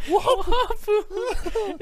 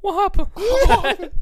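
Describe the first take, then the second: First: Slow, high drawn-out "Wahapa"; silly high squeak. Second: High drawn-out mock "Wahapa"; silly high squeak. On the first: Acted. Repeating sound effect. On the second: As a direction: squeak it like a girl would. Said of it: "they're like".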